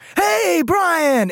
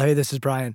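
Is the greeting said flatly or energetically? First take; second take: energetically; flatly. First: The greeting is said with lively, high energy. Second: The greeting is said in a plain, flat way.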